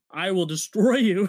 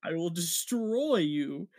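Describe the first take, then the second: First: Mock Sokovian-style accent. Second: Slow, drawn-out Eastern European accent imitation; mock accented threat. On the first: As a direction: imitate an accented villain's threat forcefully. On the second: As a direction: stretch out DESTROY in a put-on accent. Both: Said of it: "her accent comes back".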